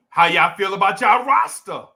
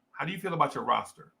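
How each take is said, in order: First: Loud New Jersey accent, "roster" sounding like "rasta". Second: "How do you feel about your roster" with every r sounded; careful standard pronunciation. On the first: Real, not acted. Host asking fans about the team, loud r-less New Jersey accent. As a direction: call it out in New Jersey talk, dropping the r in "roster". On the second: Shown as a demonstration. Host restating his question for clarity, "roster" in careful standard pronunciation. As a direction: say "your roster" in standard speech, r's intact. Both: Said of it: "I speak a certain way".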